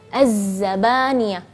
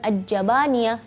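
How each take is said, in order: First: The consonant is a clearly buzzing z. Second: The consonant is a j without buzzing. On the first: The speaker calls it right. "harus jelas suara lebahnya, z" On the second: The speaker calls it wrong. "jadi bukan aj-jabaniyah ya"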